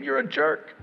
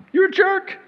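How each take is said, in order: First: Said in the usual way. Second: You're a jerk, jumping high; mock blunt rebuke. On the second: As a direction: blurt it out in jest. Pretend loving rebuke.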